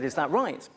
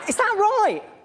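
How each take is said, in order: First: It is said in a normal, unsqueaky voice. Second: It is said in a high, squeaky voice.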